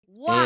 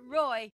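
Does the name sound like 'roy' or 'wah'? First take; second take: wah; roy. First: The name sounds like 'wah'. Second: The name sounds like 'roy'. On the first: The speaker calls it right. "it's Hugo Wah" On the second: The speaker calls it wrong. "not Roy"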